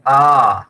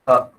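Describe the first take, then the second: First: The vowel is stretched out very long. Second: The vowel is held very briefly. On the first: "प्लुत भी करना है तो" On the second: "मैंने छोटे समय के लिए कहा"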